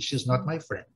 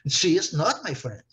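First: It is said quickly and casually. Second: It is said slowly with strong emphasis.

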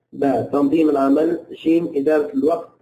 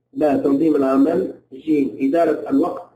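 The two takes are said the same way.

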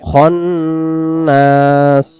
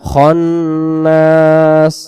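Both takes have the same delivery.

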